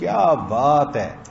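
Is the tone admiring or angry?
admiring. It is said with wonder and admiration.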